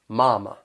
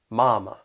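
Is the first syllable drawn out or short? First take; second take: drawn out; drawn out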